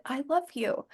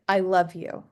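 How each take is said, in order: First: I love you said much softer, hushed and falling; mock whisper. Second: Said in the usual way. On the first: Dad retelling the ghostly whisper in his ear, hushed. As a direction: hush the words like a ghost's whisper. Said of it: "I heard a whisper in my ear". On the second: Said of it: "and then I heard".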